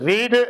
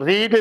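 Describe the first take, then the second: No difference in how they are said.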